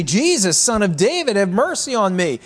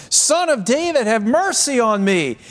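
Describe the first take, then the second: First: High, raised plea from the blind beggar; crying out. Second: Very high, raised cry for mercy; crying out all the more. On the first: Blind beggar calling to Jesus from the roadside, crying out. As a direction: call out for mercy, pitched well up. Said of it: "he began to cry out and say". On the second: Blind beggar persisting over a noisy crowd, crying out harder. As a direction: call out insistently over the crowd, pitched high. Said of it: "he cried out all the more". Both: Retold or imitated.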